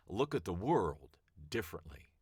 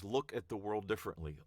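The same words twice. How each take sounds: First: Weight the word at and let differently fall; stress on at. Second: Said in the usual way. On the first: Shown as a demonstration. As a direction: Look at the world differently with at held long and firm. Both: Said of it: "the same sentence five different ways".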